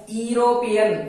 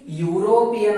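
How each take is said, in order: First: ಯುರೋಪಿಯನ್ begun with "ee" for "yu", as ee-ropian; wrong pronunciation. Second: ಯುರೋಪಿಯನ್ begun with a long "yu", as yu-ropian; correct pronunciation. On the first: Teacher showing what we do not say, ಯುರೋಪಿಯನ್ as "ee-ropian". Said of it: "ಇದಕ್ ನಾವು ಯುರೋಪಿಯನ್ ಅನ್ನಂಗಿಲ್ಲ". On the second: Teacher showing how we pronounce it, ಯುರೋಪಿಯನ್ as "yoo-ropian". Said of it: "ಇದಕ್ ನಾವ್ ಹೆಂಗ್ pronounce ಮಾಡ್ತೀವಿ?". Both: Shown as a demonstration.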